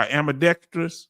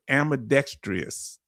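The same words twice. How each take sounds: First: "ambidextrous" chopped in a southern accent; unsure, fumbled go at "ambidextrous"; stumbled pronunciation. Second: "ambidextrous" sounded out piece by piece; careful southern-accented go at "ambidextrous"; careful attempt. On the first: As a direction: trip over the sounds of "ambidextrous". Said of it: "I'm chopping the word ambidextrous". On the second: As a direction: try hard to get "ambidextrous" right, syllable by syllable. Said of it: "Did I say it close?". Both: Real, not acted.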